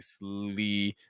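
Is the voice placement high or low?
high. The word resonates high in the head. The speaker calls it wrong. "instead of saying slee"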